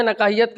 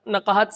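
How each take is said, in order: First: نقاہیت with an extra "i-ya" before the final t; mispronounced نقاہیت. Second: نقاہت in three syllables, na-qa-hat; correct نقاہت. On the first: Critic quotes the author's slip to him, mispronounced نقاہیت as na-qa-hi-yat. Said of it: "نقاہت کو آپ نے نقاہیت کہا". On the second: Critic corrects the author's reading, pronouncing نقاہت as na-qa-hat. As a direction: say نقاہت ending in a plain "hat", no "i-ya". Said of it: "نقاہت صحیح تلفظ ہے". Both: Shown as a demonstration.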